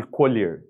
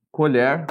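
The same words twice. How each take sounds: First: Colher with closed e, colhêr like the verb; colher, closed vowel. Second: Colher with open o, colhÉR like the spoon; colher, open vowel. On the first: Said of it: "Depois eu falo colher com a pronúncia fechada". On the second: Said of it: "eu falo colher com a pronúncia aberta". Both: Shown as a demonstration.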